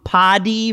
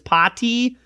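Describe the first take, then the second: First: The middle T is a soft, flapped D-like sound. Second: The middle T is a crisp, fully released T.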